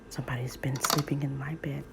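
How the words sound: It is said in a deep, growly voice.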